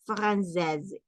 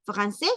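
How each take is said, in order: First: Française ending in a soft z sound; French "française". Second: Francés said with no final consonant, ending open on the vowel; French "francés". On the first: Teacher contrasting the two words, soft z ending. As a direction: close française on a light z. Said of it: "esto es française". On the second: Teacher contrasting the two words, open vowel ending. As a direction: end Francés cleanly on the open e. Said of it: "esto es francés". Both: Shown as a demonstration.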